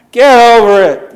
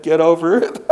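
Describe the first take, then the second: First: Higher, louder, punched "Get over it"; emphatic punchline. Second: Said through a laugh; laughing quote. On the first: Acted. Preacher repeating Marcella's line to the congregation, loud. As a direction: hammer the words "Get over it" home. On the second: Retold or imitated. Marcella's reply to the table, quoted with a laugh. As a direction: toss it off while chuckling.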